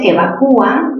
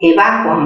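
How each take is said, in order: First: The stress falls on the syllable cu. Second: The stress falls on the syllable va. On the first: "la U es cerrada y tiene tilde" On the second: "mayor fuerza ¿dónde? En va"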